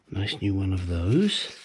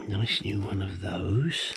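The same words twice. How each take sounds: First: Said in the usual way. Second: Slow breathy whisper of "Nice new one of those"; whispered aside about "Nice new one of those". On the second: Shown as a demonstration. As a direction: hush it like a secret, slowly. Whispered repeat of the phrase.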